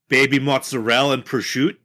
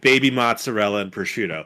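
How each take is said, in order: First: The final vowels of the words are dropped. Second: The final vowels of the words are pronounced.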